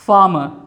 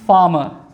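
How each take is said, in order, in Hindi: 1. स्वर के बाद r की ध्वनि साइलेंट होती है। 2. स्वर के बाद r की ध्वनि साइलेंट होती है।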